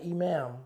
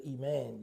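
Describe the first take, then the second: First: Imam said with a final m, as the wrong word; explaining Islam, says imam with m, not iman; imam, the leader. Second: Iman ending in n, softer and quieter; explaining Islam to the host, stresses iman ending in n; iman, faith. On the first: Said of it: "Not imam, not the leader". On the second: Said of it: "your faith within you". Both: Shown as a demonstration.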